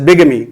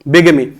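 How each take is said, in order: No difference in how they are said.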